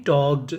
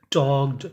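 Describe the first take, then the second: No difference in how they are said.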